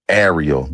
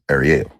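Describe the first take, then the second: First: The stress is on the first syllable. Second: The stress is on the last syllable. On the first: This is the English way of saying the name. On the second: This is the original Hebrew way of saying the name.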